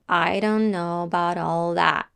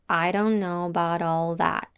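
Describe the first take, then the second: The two takes are said the same way.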